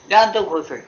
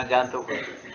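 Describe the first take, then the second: First: Louder, higher emphasis on जान; emphatic repeat. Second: Said in the usual way. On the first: Real, not acted. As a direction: punch out जान high and loud, then fall.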